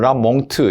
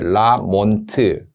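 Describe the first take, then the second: First: It ends in a nasal followed by a t. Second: It ends in an n followed by a t. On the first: The speaker calls it wrong. "두 개를 거의 중간 입자로 라몽트" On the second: The speaker calls it right. "영어식 발음으로 몬트 이렇게 라몬트"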